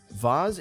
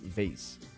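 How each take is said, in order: First: The word is said in a British accent. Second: The word is said in an American accent. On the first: "Vase is the British pronunciation" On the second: "Americans would say vase"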